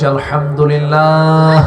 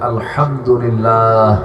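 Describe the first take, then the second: First: It is shouted loudly. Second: It is said at a normal volume. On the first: "চিৎকার মেরে বলছি" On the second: "বলে উঠছি"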